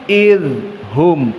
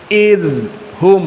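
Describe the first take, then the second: Both takes have the same delivery.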